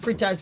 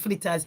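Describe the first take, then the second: First: The second sound is an R sound. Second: The second sound is an L sound. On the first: This is the usual name for the food. "Whole heap of we call fritters" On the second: This is what people in the local communities call it. "You have to say flitters. That's what we call it in other communities"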